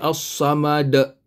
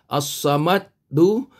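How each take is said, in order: First: The word ends on a bouncing, stopped consonant. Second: The final consonant is followed by a vowel. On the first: The reader stops at the end of the verse. "bila kita berhenti, maka kita bunyikan dia as-samad" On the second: The reader carries on without stopping. "Kalau dal tadi ini baris bawah"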